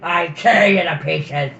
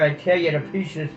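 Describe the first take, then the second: First: It is said in a put-on dying creature voice. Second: It is read in a plain narrating voice.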